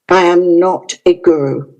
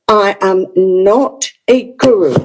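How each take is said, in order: First: It is said very quietly, almost softly. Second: It is said in a firm, strong tone.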